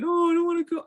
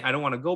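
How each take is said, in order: First: High-pitched imitated toddler whine; protesting toddler. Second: Said in the usual way. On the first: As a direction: mimic a small child refusing to leave. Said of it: "he was just like". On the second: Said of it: "Like, he didn't say".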